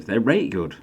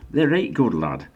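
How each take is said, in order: First: Light Yorkshire. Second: Hammed-up Yorkshire, they're rate good lad, said higher with the rate stretched; broad Yorkshire. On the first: Pretend. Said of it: "Don't do that". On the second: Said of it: "Don't do that. I've lost my accent".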